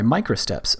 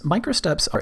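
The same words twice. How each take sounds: First: Said in the usual way. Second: Microsteps restated higher and clearer; re-say Microsteps as a firm self-correction; corrected restart. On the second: Real, not acted. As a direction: repeat Microsteps with a fresh emphatic start. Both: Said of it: "uh, uh, sorry".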